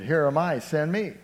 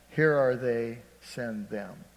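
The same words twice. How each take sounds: First: "Here am I, send me" louder, proclaimed with ringing emphasis; right version. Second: "Here are they, send them" read as the mistaken misquote, trailing off; preacher misquoting Isaiah to the church, deliberately wrong; wrong version. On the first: Preacher giving the true words of Isaiah to the church, proclaiming. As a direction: declare "Here am I, send me" boldly. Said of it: "He said". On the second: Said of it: "That's not what he said". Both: Retold or imitated.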